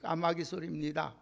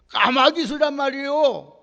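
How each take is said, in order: First: It is said calmly at normal volume. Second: It is said loudly with a raised voice.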